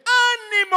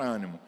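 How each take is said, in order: First: High, loud, rallying cry of Ânimo; rousing shout. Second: Said in the usual way. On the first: Shown as a demonstration. Preacher cueing the congregation to repeat, rousing shout. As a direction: belt out Ânimo! like a call to rise. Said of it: "Vamos treinar mais uma vez?". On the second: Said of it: "não é quando eu falar a palavra ânimo".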